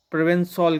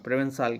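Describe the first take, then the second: First: प्रोवेंसॉल ending in a rounded '-sol' sound; pronunciation demo. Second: Softer, quicker प्रोवेंसाल ending in '-saal'; alternative pronunciation. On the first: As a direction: say प्रोवेंसॉल with an 'aw' in the last syllable, '-sawl'. (प्रोवेंसॉल के अंत में 'सॉल' का उच्चारण) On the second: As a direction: say प्रोवेंसाल with an open 'aa' in the last syllable, '-saal'. (प्रोवेंसाल के अंत में 'साल' का उच्चारण) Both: Shown as a demonstration. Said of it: "pronounce किया जाएगा इसको".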